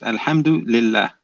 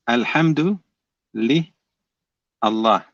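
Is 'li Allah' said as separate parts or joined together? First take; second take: joined; separate. First: Li and Allah are joined into one word. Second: Li and Allah are said as separate parts. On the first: "In other words" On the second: "that's how you break it down"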